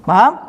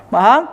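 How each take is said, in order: No difference in how they are said.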